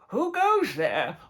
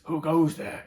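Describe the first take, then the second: First: It is said in a put-on, character voice. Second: It is said in an ordinary, flat speaking voice. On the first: The speaker calls it right. "Whereas I'd go" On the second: The speaker calls it wrong. "in his regular voice"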